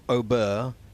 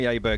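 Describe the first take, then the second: First: The name is said with its native pronunciation. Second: The name is said with an anglicized pronunciation. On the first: This is how it is said in his home country. "he pronounced it in his own country something like Ober" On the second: This is the simpler form he asks others to use. "Call me Aberg, it's simpler"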